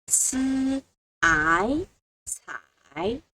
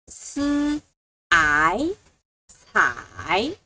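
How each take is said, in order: The two takes are said the same way.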